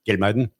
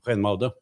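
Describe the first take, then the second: First: The name has its Norwegian pronunciation. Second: The name has its Dutch pronunciation. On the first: "Men det er Gelmeiden?" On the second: "Og i Nederland så sier de"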